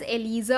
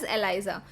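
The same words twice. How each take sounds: First: It is said with an Indian pronunciation. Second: It is said with a British-American pronunciation. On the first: "that is the Indian pronunciation" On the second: "British and American pronunciation says it as Eliza"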